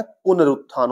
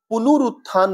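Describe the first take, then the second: First: पुनरुत्थान said as pu-na-rut-thaan; correct spelling read out. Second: पुनरुत्थान said as pu-nu-ru-thaan; wrong spelling read out. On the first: Teacher giving students the correct form, said clearly. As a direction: say पुनरुत्थान with a short a after न. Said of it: "होता है". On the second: Teacher reading the wrong form to students, with extra u sounds. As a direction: say पुनरुत्थान with u after न. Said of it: "नहीं होता है". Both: Shown as a demonstration.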